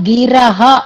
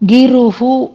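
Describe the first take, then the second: First: The vowel after 'gir' is an 'a'. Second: The vowel after 'gir' is a 'u'. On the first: The speaker calls it right. "సంశ్రిత గిరహ అనేది పదం" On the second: The speaker calls it wrong. "అక్కడ గిరుహు అన్నారు"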